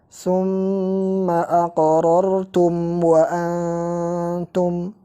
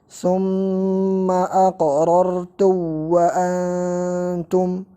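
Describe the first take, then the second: First: The m is pronounced clearly before the w. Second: The m is merged into the following w. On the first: The speaker calls it right. "Jadi bacanya izhar" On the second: The speaker calls it wrong. "bukan diidghamkan seperti ini"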